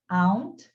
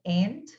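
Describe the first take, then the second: First: Aunt said with an open ah vowel, like "ahnt"; aunt with broad ah. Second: Aunt said with a flat a, like "ant". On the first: Teacher models the first way to say aunt, with an ah sound. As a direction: give aunt the open British-style ah. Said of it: "Tem pessoas que vão pronunciar aunt". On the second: Teacher models the American aunt, like ant. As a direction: make aunt rhyme with ant. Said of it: "normalmente eles falam aunt". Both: Shown as a demonstration.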